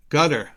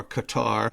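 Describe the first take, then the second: First: "Qatar" said like "gutter"; first variant pronunciation. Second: "Qatar" said as kuh-TAR; alternative pronunciation. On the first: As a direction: say "Qatar" as GUT-er, stress first. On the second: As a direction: say "Qatar" with stress on the second syllable. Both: Shown as a demonstration. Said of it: "however one might say it".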